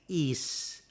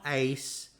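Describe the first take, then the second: First: The vowel is a long ee sound. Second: The vowel sounds like the word ace. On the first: The speaker calls it right. "it's is" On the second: The speaker calls it wrong. "it's not ace"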